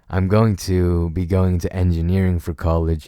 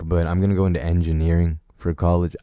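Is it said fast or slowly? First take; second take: slowly; fast. First: It is said more slowly. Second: It is said fast.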